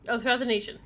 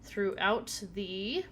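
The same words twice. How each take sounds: First: Said in the usual way. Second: Halting, drawn-out words; stumbling, slowed-down reading. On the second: Real, not acted.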